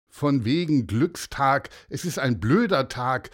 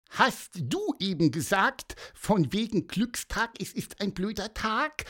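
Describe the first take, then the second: First: Lightly voiced sulky boy, a bit louder; grumpy retort. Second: High squeaky quote, rising at the end; questioning little bird. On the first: Unseen boy cuts into their happiness, grumpy. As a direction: contradict them with mild scorn. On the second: Pieper checks what the boy said, high inquisitive chirp. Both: A narrator's reading.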